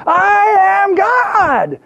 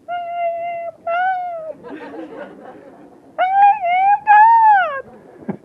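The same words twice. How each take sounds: First: All-out high, long mock shout; hammed-up yell, stretched as far as it goes; Shirley MacLaine shouting. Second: Faint mock yell drifting up from a speck; tiny far-off shout. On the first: Actress giving guru her loudest try, mock shout. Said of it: "Say it louder". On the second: Creature on the beach heard from heaven, tiny distant voice. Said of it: "not much bigger than the grains of sand".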